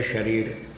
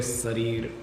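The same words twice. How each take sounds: First: शरीर with an initial "sh" sound; correct pronunciation. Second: शरीर said as "sarir", with plain "s"; mispronunciation. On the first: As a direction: say शरीर starting with a hushing "sh". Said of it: "शुद्ध शब्द है". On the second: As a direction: swap the opening "sh" of शरीर for "s". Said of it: "शरीर बोलना अशुद्ध है". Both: Shown as a demonstration.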